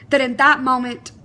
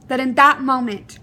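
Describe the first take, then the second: No difference in how they are said.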